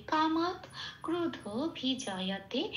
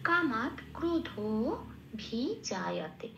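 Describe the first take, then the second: First: Line read slowly in Bengali pronunciation; unhurried Bengali-style reading of the verse words. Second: Careful Sanskrit line with lengthened dho; Sanskrit pronunciation. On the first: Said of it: "এটা আমি বাংলায় বললাম". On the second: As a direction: sound kamat krodho bhijayate fully, pausing between parts. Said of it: "শেষ পাঠটা কি পেলাম". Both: Shown as a demonstration.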